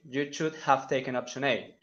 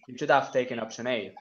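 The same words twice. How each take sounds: First: The h in 'have' is clearly pronounced. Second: The h in 'have' is dropped. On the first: "they don't say" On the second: "they try to omit and they say it"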